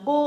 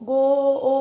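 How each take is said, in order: First: Said in the usual way. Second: গো, ও with the vowel stretched and repeated; broken in two. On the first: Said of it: "গো কথাটাই পুরো একবারে আসছে". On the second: Shown as a demonstration. Teacher showing it won't split, গো, ও broken apart. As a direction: pull গো apart into গো and a separate ও. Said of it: "ভাঙা যাচ্ছে না".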